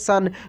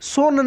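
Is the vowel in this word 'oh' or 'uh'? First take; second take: uh; oh. First: The vowel is a short 'uh' sound. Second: The vowel is a long 'oh' sound. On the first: The speaker calls it right. "इसको हम लोग सन बोलेंगे" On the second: The speaker calls it wrong. "सोन नहीं"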